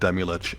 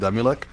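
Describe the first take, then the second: First: The name ends with a 'ch' sound. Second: The name ends with a 'k' sound. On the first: This is the pronunciation the group prefers. "we all agree on" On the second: This is the intended pronunciation. "supposed to be pronounced"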